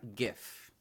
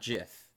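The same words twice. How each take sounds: First: The word begins with a hard g sound. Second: The word begins with a soft g sound. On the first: The speaker calls it right. "The the the acronym for GIFs is is uh, graphical interface something" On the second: The speaker calls it wrong.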